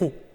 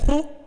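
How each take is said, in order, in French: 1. Le ton descend sur le mot ho. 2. Le ton monte sur le mot ho. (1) "Ça descend" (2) "ça monte, donc accent euh, aigu"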